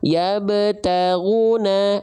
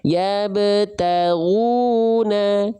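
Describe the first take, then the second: First: The long vowel is rushed and cut short. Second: The long vowel is held for two beats. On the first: The speaker calls it wrong. "itu kan kecepatan, bablas, jangan" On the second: The speaker calls it right. "dua harokat ayunannya dua kali"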